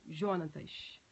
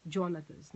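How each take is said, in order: First: Jonatas with a soft initial zh sound; soft J pronunciation. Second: Jonatas with an initial dj sound; hard J pronunciation. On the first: Teacher unsure of a student's name, soft-J Jonatas. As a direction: say Jonatas starting like French "je", no d. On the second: Teacher trying the student's name another way, hard-J Jonatas. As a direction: say Jonatas as Djonatas, English-style J. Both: Shown as a demonstration. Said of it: "não sei como se pronuncia".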